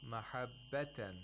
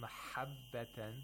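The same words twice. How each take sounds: First: The h is light, with too little breathy friction. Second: The h is harsh, almost a scraping kh. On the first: "we didn't hear the buha enough" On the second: "that's too much buha, which resembles a kha almost"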